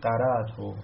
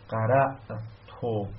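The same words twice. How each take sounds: First: The hamza becomes a long vowel, no glottal stop. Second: The hamza is kept as a glottal stop. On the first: "میتونید بگید قرأتو" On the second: "نگید قرأتو"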